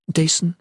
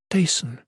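First: Higher, questioning call of a name; concerned, lifted in pitch. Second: Soothing call of a name, higher and falling; tender. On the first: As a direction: ask it with gentle worry. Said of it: "she said, concerned". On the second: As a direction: say the name with gentle sympathy. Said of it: "the Chalain returned tenderly". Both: A narrator's reading.

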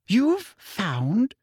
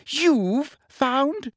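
First: Higher, indignant rise; shrill. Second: Shriller repeat. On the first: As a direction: Umbridge shocked and shrill. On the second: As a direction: shriek it in disbelief. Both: A narrator's reading. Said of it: "said Umbridge shrilly".

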